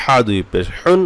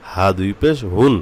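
First: "হা" and "হুন" squeezed from the throat; throaty ha. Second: Said in the usual way. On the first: Shown as a demonstration. Teacher separating two letters, throaty "হা ... হুন". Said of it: "এই হা গলা থেকে আসতে হবে". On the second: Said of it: "হাটা স্বাভাবিকভাবে".

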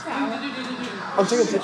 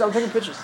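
First: Laughing through the words. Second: Said in the usual way. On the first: Real, not acted. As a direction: giggle it out slowly.

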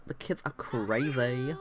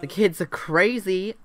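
First: Softer, slower, through a laugh; laughing repeat. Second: Put-on louder, higher, fed up with the kids; exasperated outburst. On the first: Real, not acted. Babysitter laughing at her own complaint, softer laugh. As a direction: laugh it off quietly. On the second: Babysitter fed up with the Sims kids, exasperated outburst. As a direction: throw it out in mock despair.

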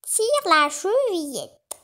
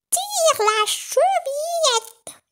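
First: Slow, higher hushed wolf-as-granny; a lightly voiced false grandmother; wolf calling out. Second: Put-on very high, slow, louder happy old lady; joyful grandmother. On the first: Wolf in disguise calls the girl in, slow and hushed. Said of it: "s'écria le loup". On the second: Grandmother joyfully calls her granddaughter in, very high. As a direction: call out gladly like a granny. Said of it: "s'écria la grand-mère, toute joyeuse". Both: A narrator's reading.

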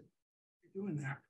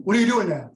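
First: A quiet, far-off muttered question; murmured confusion at the chatbot; puzzled aside. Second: A louder, lifted question to start the chat; bright opener. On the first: User puzzled by the bot's narration, murmured quietly. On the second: User opening a chat with the Van Gogh bot, louder. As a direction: pitch the question out eagerly. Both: Retold or imitated.

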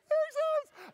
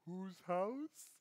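First: Very high, loud victory shout; overjoyed crowing squeal; elated cheer. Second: Said in the usual way. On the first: Retold or imitated. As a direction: scream it triumphantly. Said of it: "I was so happy".

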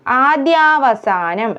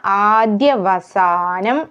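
First: ആദ്യാവസാനം with a long "dyaa"; wrong pronunciation. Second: ആദ്യവസാനം slowly, short "dya", long "saa"; correct vowel length. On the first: Teacher showing the mistake, long "dyaa" in ആദ്യാവസാനം. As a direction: lengthen the second vowel of ആദ്യാവസാനം. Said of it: "എന്നതല്ല". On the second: Teacher correcting vowel length, slow stretched ആദ്യവസാനം. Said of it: "നീട്ടൽ വേണ്ട". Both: Shown as a demonstration.

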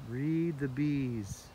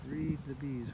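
First: Very slow, leaning on read; slow emphatic. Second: Said in the usual way. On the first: Shown as a demonstration. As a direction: draw out read the bees slowly.

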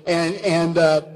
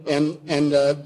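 Both takes have the same delivery.

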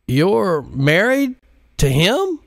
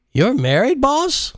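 First: Much higher, slow, stunned "married"; shocked surprise. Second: Very high rising "married, boss?"; shocked question. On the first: Pilot shocked to learn Modise is married, high and stunned. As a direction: ask as if you can't believe it. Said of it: "with honest surprise and shock". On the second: Jacinto stunned at his boss, rising high in disbelief. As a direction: blurt it in disbelief. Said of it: "instantly lost his buzz". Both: Acted.

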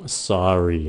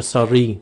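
First: SORRY said with the pitch dropping; low, falling "sorry", as a model. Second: SORRY with the last syllable wrongly lifted; wrong rising tone. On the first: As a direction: bring the voice down on "sorry". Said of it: "Xuống giọng". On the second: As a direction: lift the end of "sorry" instead of dropping it. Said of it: "Đừng có sorry". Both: Shown as a demonstration.

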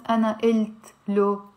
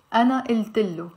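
First: "ana ilt lo" with a hard t, lo kept apart; "ilt" cut off at the t, then a plain "lo"; separate word-by-word reading. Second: "Ana il tillo" run together, with an i after the t; "tillo" with a short i and long l; linked pronunciation. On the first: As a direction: say "ana ilt lo" as separate words, no linking vowel. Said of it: "is not gonna be pronounced". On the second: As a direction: join it smoothly as "Ana il tillo", double L. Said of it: "So we will end up saying". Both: Shown as a demonstration.

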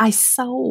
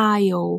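First: "I saw" with the S sounded, for aisle; common mispronunciation. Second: "aisle" said as "ai-yo", no S; silent S. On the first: Retold or imitated. Teacher imitating many learners' mistake, "I saw" with an audible S. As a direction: say aisle wrongly as "ai-sow". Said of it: "หลายคนออกเสียงว่า". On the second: Shown as a demonstration. Teacher correcting learners, "aisle" with silent S. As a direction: drop the S completely in "aisle". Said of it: "ตัว s นี่บ่ออกเสียง".

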